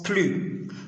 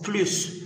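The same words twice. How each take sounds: First: The word ends without an s sound. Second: The word ends with an s sound. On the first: It is used with the negation ne. "lorsque ce mot est accompagné du mot de négation ne, on le prononce plus" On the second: It is used without the negation ne. "Lorsque ce mot n'est pas accompagné du mot de négation ne, on le prononce plus"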